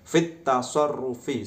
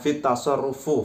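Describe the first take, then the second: First: The last word ends in an 'i' vowel. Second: The last word ends in an 'u' vowel. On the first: The speaker calls it right. "padahal yang betul fit tasarrufi karena ada huruf jerfi" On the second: The speaker calls it wrong. "dia bacanya fit tasarrufu fu ya"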